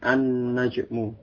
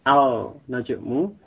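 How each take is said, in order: First: The L merges into a doubled N sound. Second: The L of the article is pronounced clearly. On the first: The speaker calls it right. "huruf lam pada alif lam itu tidak dibaca dengan jelas, tetapi dia masuk pada huruf sesudahnya" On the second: The speaker calls it wrong. "bukan Al-Najmu"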